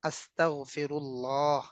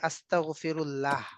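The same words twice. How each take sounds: First: The vowels are long, in Arabic style. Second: The vowels are short, in Bengali style. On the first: "এগুলো হচ্ছে লম্বা টান" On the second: "বাংলায় হচ্ছে"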